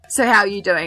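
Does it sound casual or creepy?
casual. It is said in a normal, casual way.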